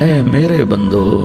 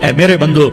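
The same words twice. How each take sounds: First: It is said in a warm, loving tone. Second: It is said in a plain, unaffectionate tone. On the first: The speaker calls it right. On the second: The speaker calls it wrong.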